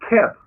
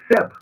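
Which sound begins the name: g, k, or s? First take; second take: k; s. First: The name begins with a k sound. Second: The name begins with an s sound. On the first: The speaker calls it wrong. "The Germans use K. They call him Keb" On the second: The speaker calls it right. "we know that Seb is the proper pronunciation"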